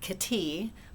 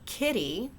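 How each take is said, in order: First: The stress is on the second syllable. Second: The stress is on the first syllable. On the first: The speaker calls it wrong. "with emphasis on the second syllable" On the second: The speaker calls it right. "with emphasis on the first syllable"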